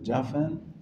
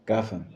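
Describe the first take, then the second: First: The first consonant is the dotted-gimel sound. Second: The first consonant is the undotted-gimel sound. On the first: "with a dot it's it's uh" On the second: "without a dot it's uh"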